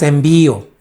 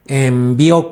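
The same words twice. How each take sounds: First: Envío with a stressed í, en-VÍ-o. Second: Envió with the accent on the last ó; stress on final O. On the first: Preacher rejecting the wrong word, envío stressed on the í. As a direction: put the weight on the middle of envío. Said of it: "No es envío". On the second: Preacher teaching the church the right word, envió stressed on the final ó. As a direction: hit the end of envió, en-vi-Ó. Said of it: "con acento en la O". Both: Shown as a demonstration.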